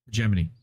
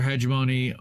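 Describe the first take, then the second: First: "Hegemony" said heh-JEM-uh-nee, stressed second syllable; hegemony, alternative pronunciation. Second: "hegemony" said HEJ-uh-moh-nee, stressed first syllable; hegemony, first pronunciation. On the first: Reader repeating the word aside, "Hegemony" as heh-JEM-uh-nee. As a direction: put the beat on JEM in "Hegemony". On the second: Reader voicing the article, "hegemony" as HEJ-uh-moh-nee. Reader gives word two ways. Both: Shown as a demonstration.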